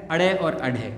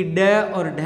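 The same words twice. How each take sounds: First: अड़े और अढ़े with leading "a" and a flap; flapped dotted letters. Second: ड और ढ as hard retroflex stops; hard undotted letters. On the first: Teacher contrasts letter pairs, flapped अड़े और अढ़े. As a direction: flick the tongue on अड़े, then अढ़े. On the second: Teacher contrasts letter pairs, unflapped ड और ढ. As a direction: stop the tongue firmly on ड, then aspirated ढ. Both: Shown as a demonstration. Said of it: "ये क्या अलग-अलग होते हैं".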